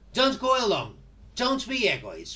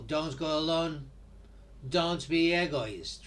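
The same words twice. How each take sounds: First: It is said with a hard, commanding intonation. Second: It is said with a soft, gentle intonation. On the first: It is a command. "In this case, it's an order" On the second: It is friendly advice. "Maybe you use a softer intonation, and in this case, it could be like a kind of piece of advice"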